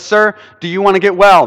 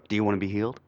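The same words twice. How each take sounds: First: Said in the usual way. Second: Mock crazy stranger. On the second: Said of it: "looks a little crazy walks up".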